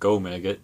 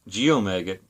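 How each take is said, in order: First: The name begins with one syllable, 'go'. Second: The name begins with two syllables, 'gee-oh'. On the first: "if it's actually pronounced Go-Maggot" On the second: "I used to pronounce it Geomaggot"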